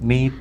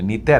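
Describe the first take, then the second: First: The first vowel is drawn out long. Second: The first vowel is said short. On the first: The speaker calls it right. "നീ ഒന്ന് നീട്ടിയാ മതി" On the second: The speaker calls it wrong. "നീത അല്ല"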